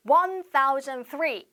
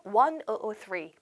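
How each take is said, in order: First: "One thousand three" read slowly as a full number; slow wrong reading. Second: "One oh oh three" slowly, digit by digit; slow model for repeating. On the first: Teacher showing students the wrong way, slowly. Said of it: "이렇게 읽지 않고". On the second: Teacher leading students to repeat, slowly. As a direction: read the digits one at a time for them to copy. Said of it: "자, 따라해볼게요". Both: Shown as a demonstration.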